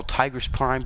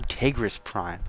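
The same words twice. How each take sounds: First: Tigress with "tie" up front; standard pronunciation. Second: Tigris with "tay" up front; other people's pronunciation. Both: Shown as a demonstration. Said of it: "A lot of people call".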